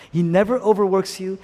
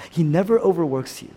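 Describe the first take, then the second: No difference in how they are said.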